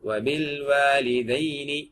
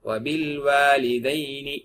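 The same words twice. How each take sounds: The two takes are said the same way.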